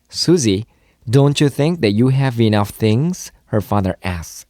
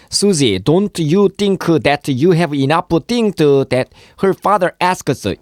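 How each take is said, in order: First: "don't you" linked as "don-chu"; easy connected English, "have enough" as "ha-venough"; natural, fluent. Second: High, syllable-by-syllable Korean learner accent; mock Korean-style English, every word separate; bad Korean-accented English. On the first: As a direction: say "have enough things" smoothly joined, with no added vowels. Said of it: "자연스럽게 유창하게". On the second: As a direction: add vowels after consonants in a thick Korean accent. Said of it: "이렇게 하면 이건 영어가 아닙니다". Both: Shown as a demonstration.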